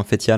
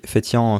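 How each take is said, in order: First: Fétian pronounced "fé-tiane", n fully sounded; Fétian with an oral a plus n; sounded final n. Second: Fétian ending in a nasal "an", silent n; Fétian with a nasalised last vowel; nasal final vowel. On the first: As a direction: end Fétian on a clear "ann". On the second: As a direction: say Fétian French-style, like "fé-tyan" with no sounded n. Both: Shown as a demonstration. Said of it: "je sais pas comment ça se prononce".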